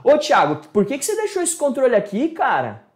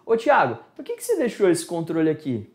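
First: Annoyed scolding tone. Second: Said in the usual way. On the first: Shown as a demonstration. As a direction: scold a friend for leaving things around. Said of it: "Ó o tom de voz, que já é diferente". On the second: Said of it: "É uma forma".

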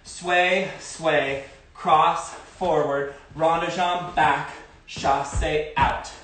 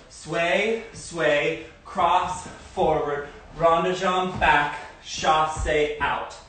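First: Slow, drawn-out step calls; calling dance steps. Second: Calling dance steps. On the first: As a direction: call each step to the beat. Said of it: "Let's do that again". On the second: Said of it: "Start on the left leg". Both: Shown as a demonstration.

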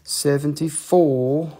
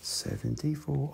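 First: "Seventy-four" drawn out slowly with a rising tune; rising price. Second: "Seventy-four" much softer, flat and falling; quiet repeat. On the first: Seller announces the price to viewers, slow and rising. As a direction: stretch "Seventy-four" and lift it at the end like a question. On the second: Seller repeats the price to viewers, quiet and falling. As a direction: drop "Seventy-four" to a soft aside. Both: Shown as a demonstration. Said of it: "price said twice".

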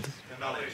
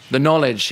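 First: Barely voiced murmur while recalling; whispered to self. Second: Said in the usual way. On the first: Real, not acted. Speaker recalling the London cab test, whispered. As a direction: whisper it to yourself as it comes back.

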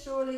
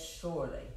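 First: "Surely" said louder and higher than the first time; emphatic "Surely"; stressed Surely. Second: Said in the usual way. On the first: Shown as a demonstration. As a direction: lean hard on "Surely" so it means it's a sure thing. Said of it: "it means it's a sure thing". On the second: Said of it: "So if it says, "Surely," it means it's a sure thing".

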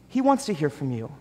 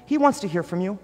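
First: "He wants to hear from you" quieter, settled and falling; soft repeat. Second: "he wants to hear from you" lifted, rising and bright in emphasis; eager insistence. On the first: Pastor repeating to the congregation, softly and sincerely. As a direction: let it land gently. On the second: Pastor insisting God wants to hear from you, eager. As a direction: raise it like good news. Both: Acted.

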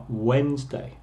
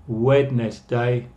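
First: Wednesday as WENZ-day, middle d silent; Wednesday in two syllables, WENZ-day; as pronounced. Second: Wednesday sounded out slowly, WED-NES-day; as spelled. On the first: Teacher giving the class the spoken Wednesday. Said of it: "pero se pronuncia Wednesday". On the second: Teacher spelling out Wednesday the way it is written. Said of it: "Por eso se escribe Wednesday". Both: Shown as a demonstration.

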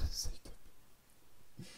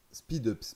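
First: "Side up" whispered through a laugh, with an ai sound; laughing slip. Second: "Speed ups" with a clear English ee in speed; correct name. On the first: (« Side up » chuchoté en riant, avec un « aï ») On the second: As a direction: say "Speed ups" with the long ee sound. (« Speed ups » avec un i bien long) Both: Real, not acted.

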